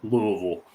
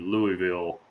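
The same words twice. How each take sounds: First: The name is said in the local way. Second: The name is said in a non-local way.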